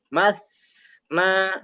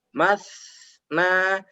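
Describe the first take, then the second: No difference in how they are said.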